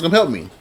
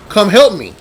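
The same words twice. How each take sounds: First: Said in the usual way. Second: Higher, louder call for help; a short, restrained yell to summon others; retold yell for help. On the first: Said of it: "So I'm yelling to my other constables". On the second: Camp worker calls the other counselors, retold yell. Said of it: "I yell and go".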